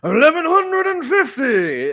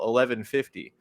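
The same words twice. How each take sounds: First: It is said in a drawn-out announcer voice. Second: It is said in a plain speaking voice. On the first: "I really had the urge to do the darts guy voice" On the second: "I said the episode number title"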